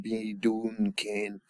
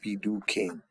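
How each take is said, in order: First: The middle syllable ends with an N sound. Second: The middle syllable has no N sound. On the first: The speaker calls it wrong. "sounds funny. I never heard that before" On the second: The speaker calls it right. "You drop the N"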